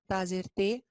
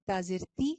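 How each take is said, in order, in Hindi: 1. अंतिम स्वर ढीला 'ay' ध्वनि है। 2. अंतिम स्वर बारीक 'ee' ध्वनि है। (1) "मजहूल" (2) "इसकी आवाज बारीक होती है, ई ई की आवाज"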